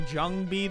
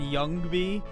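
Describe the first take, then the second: First: The name begins with a 'j' sound. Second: The name begins with a 'y' sound. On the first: The speaker calls it wrong. "I've been saying Jungby the whole time" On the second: The speaker calls it right. "you've let me say oh no and Youngby"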